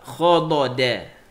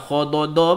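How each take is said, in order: First: The final vowel sounds like an open 'a'. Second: The final vowel sounds like a rounded 'o'. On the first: The speaker calls it right. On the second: The speaker calls it wrong. "Jangan khododo pula"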